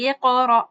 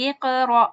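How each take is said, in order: The two takes are said the same way.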